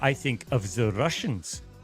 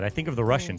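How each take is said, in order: First: It is said in a German-sounding accent. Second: It is said in a Russian-sounding accent.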